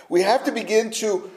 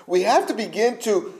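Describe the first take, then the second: No difference in how they are said.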